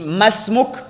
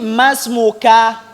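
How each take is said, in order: First: The word ends on the bare k consonant. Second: The word ends with an extra short a vowel. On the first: The speaker calls it right. "On dit masmuk" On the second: The speaker calls it wrong. "Et ne dit pas aussi masmuka"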